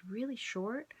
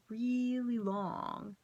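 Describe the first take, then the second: First: Said in the usual way. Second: REALLY stretched very long, pitched higher; drawn-out emphasis. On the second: Real, not acted. Telling viewers how meditation time feels, "really" drawn out slowly. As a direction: drag out "really long" to sound endless. Stretches the words to mimic length.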